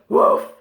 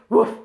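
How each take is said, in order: First: The bark is held and drawn out longer. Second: The bark is short and clipped. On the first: "try and make it go for a bit longer" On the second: "that short woof"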